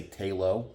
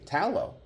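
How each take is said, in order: First: "Talo" said TAY-loh, long A and long O; long A pronunciation. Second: "tallow" said TAL-oh with a short A, as in tallow; short A pronunciation. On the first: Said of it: "some people might say Talo". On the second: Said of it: "Some people might say tallow". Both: Shown as a demonstration.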